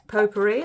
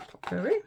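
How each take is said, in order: First: Potpourri said as POH-puh-ree, long O start; POH-pourri. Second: Potpourri said as PAH-puh-ree, first syllable like pot; POT-pourri. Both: Shown as a demonstration. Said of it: "There's two, two ways of saying it".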